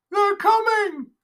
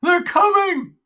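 First: High, loud, slow drawn-out panicked cry; stretching the wail out in terror; slower crying out. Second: High, loud panicked cry; a terrified old man crying out; crying out in fear. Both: Acted.

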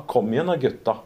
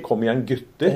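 First: "Kom igjen da, gutta" with gutta ending in -a; Lørenskog dialect. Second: "Kom igjen, gutter" with gutter ending in -er; Oslo east side dialect. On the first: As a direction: say "gutta" with a broad open a. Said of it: "vi sa gutta". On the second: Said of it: "som vi sa i på østkanten i Oslo". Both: Shown as a demonstration.

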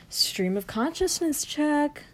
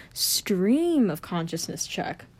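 First: Higher slow whisper, "check" stressed. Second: Slow whispered "Stream of consciousness check.". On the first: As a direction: whisper it up high, ending on "check". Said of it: "whispered repeat, higher". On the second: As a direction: whisper it slowly, like a mic test. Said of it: "whispered repeat". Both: Shown as a demonstration.

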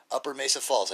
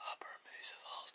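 First: Said in the usual way. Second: Breathy whisper. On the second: Shown as a demonstration. Showing viewers his breathed-out trick, whispered. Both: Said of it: "But I say it with my breath".

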